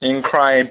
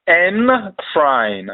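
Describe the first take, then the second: First: Said in the usual way. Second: "N-crying" very slowly, a separate N then a long "crain"; slow pronunciation demo. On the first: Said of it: "pronounced N-crying". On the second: Shown as a demonstration. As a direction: sound out "N-crying" as two stretched parts, N and crain.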